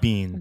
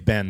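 First: The vowel is long, rhyming with 'seen'. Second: The vowel is short, rhyming with 'ten'. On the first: This is how those people say it. "They say Bean" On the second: This is not how those people say it. "They don't say Ben"

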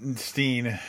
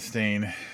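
First: The vowel sounds like 'ee', as in 'seen'. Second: The vowel sounds like 'ay', as in 'rain'. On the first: The speaker calls it right. "Steen, not stain" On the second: The speaker calls it wrong. "not stain"

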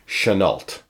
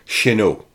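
First: The name is pronounced the American way. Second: The name is pronounced the French way. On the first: The speaker calls it right. "pronounced it in the Americanized way" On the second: The speaker calls it wrong. "pronounced in the French manner"

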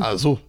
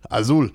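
First: It is said with an American English accent. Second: It is said with a Spanish accent.

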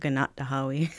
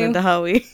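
First: A glottal catch follows the syllable na. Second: No glottal catch follows the syllable na. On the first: The speaker calls it wrong. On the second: The speaker calls it right.

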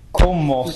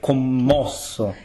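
First: The stress is not on the second syllable. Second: The stress is on the second syllable. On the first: The speaker calls it wrong. "ma non è così in italiano" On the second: The speaker calls it right. "That second syllable is actually the stressed syllable"

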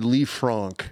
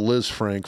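First: The first syllable sounds like 'lee'. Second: The first syllable sounds like 'liz'. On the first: This is the technically correct way of saying the name. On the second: This is the everyday way of saying the name.

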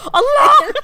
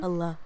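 First: It is screamed very loudly. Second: It is said very quietly.

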